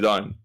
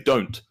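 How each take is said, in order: First: It is said with a slurred t. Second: It is said with a crisp, unslurred t.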